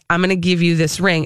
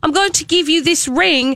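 First: It is said in the speaker's ordinary voice. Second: It is said imitating another man's way of speaking.

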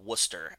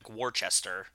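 First: It is said short, like Wooster. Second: It is said letter by letter, like Wor-ces-ter. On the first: The speaker calls it right. "but it's called Worcester, as in W-O-O-S-T-E-R" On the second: The speaker calls it wrong. "it's spelled like Worcester"

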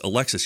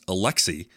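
First: The final s sound is pronounced. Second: The final s sound is silent. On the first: The speaker calls it wrong. "I've always heard it as Alexis" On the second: The speaker calls it right. "The proper French pronunciation"

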